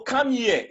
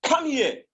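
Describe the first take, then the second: First: Said in the usual way. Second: Up high, like a command; higher commanding tone. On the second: Shown as a demonstration. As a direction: call it out high as an order. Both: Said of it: "the second one has a higher tone".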